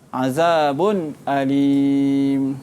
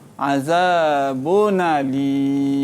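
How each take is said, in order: First: A clear glottal stop begins the second word. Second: The n sound runs smoothly into the next word. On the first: "khalaf baca dengan tahqiq, iaitu dia baca dengan izahlah halqi" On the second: "Dibaca dengan naqal"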